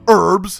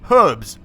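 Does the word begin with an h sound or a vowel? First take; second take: vowel; h sound. First: The word begins with a vowel sound. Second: The word begins with an h sound. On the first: The speaker calls it wrong. "not herbs" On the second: The speaker calls it right. "I'm saying it correctly"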